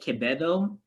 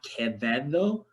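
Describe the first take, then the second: First: The middle consonant is said as a B. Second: The middle consonant is said as a V. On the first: It marks the name as Filipino. "saying it Quevedo" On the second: It marks the name as Spanish or Latine. "and not Quevedo"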